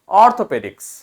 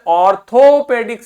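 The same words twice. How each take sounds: First: The middle vowel is said lightly and reduced. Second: The middle vowel is said with its full sound. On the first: The speaker calls it right. "उसका हल्का सा sound आपको देना है" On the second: The speaker calls it wrong. "पूरा sound नहीं देना। जैसे ऑर्थोपेडिक्स नहीं"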